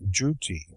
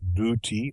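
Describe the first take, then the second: First: The word begins with a 'j' sound. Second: The word begins with a plain 'd' sound. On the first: "or juty" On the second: "as though it were spelled either dooty"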